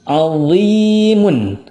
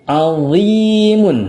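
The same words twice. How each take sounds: Both takes have the same delivery.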